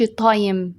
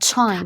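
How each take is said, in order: First: The t is plain, without a puff of air. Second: The t is strong, with a puff of air. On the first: The speaker calls it wrong. "ما تقولش تايم" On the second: The speaker calls it right. "اسمها تايم"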